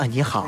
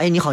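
First: The greeting sounds coy and affected. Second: The greeting sounds natural and friendly.

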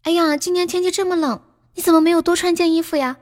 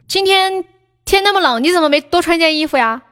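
First: It sounds caring and concerned for the listener. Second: It sounds like scolding the listener.

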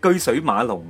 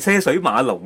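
First: The first syllable is read as 'geoi'. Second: The first syllable is read as 'ce'. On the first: The speaker calls it right. "系居水马龙啊" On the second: The speaker calls it wrong. "唔系车水马龙啊"

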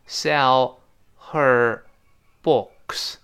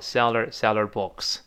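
First: Each word is said separately, with the h sounded. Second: The h drops and the first two words link. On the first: "这是分解读" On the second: "读快了之后呢sell her 变成seller books"

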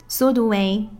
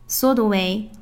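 Both takes have the same delivery.

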